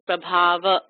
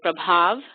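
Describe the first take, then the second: First: The word ends with a short uh vowel. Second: The word ends on the consonant v. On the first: This is the Sanskrit form. "In Sanskrit, you pronounce that a at the end" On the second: This is the colloquial Hindi or Marathi form. "in colloquial languages like Hindi, Marathi, we would just say prabhav"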